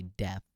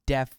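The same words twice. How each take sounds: First: Said in the usual way. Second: "deaf" ending in a TH sound, like "death"; mispronounced as death. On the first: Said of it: "meant to say deaf". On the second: Shown as a demonstration. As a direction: say "deaf" with tongue-between-teeth TH at the end. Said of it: "I said deaf when I meant".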